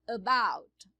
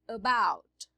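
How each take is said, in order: No difference in how they are said.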